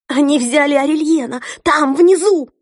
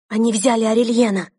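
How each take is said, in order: First: High, loud panicked outburst; panicked cry. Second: Frightened. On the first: Sister repeats, now panicking. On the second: Sister reports arrest in fear. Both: Acted.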